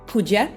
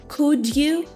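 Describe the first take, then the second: First: 'You' is reduced to 'ya'. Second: 'You' is fully pronounced.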